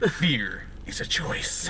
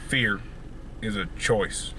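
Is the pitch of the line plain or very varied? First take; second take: very varied; plain. First: The pitch moves a lot, very expressive. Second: The pitch stays plainer, less expressive. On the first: The speaker calls it wrong. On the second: The speaker calls it right.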